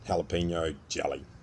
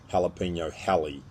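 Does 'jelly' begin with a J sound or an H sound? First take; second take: J sound; H sound. First: The word jelly begins with a J sound. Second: The word jelly begins with an H sound.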